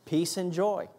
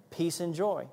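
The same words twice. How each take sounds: The two takes are said the same way.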